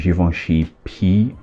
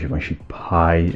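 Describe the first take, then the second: First: The last word sounds like 'pee'. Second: The last word sounds like 'pie'. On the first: "in Portuguese, this we call this P, and in French it's the same" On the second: "as you say in English"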